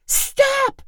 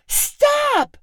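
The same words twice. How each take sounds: First: Very high shrieked stop; scream. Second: Scream. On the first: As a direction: shriek it after him. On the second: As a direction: shriek it, even more desperate. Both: A narrator's reading. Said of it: "Chloe screamed".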